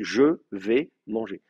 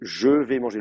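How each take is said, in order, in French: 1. La voyelle de « je » est entièrement prononcée. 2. La voyelle de « je » est supprimée. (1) "l'orthographe française vous dit non, vous dites je vais manger" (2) "Le E est tombé"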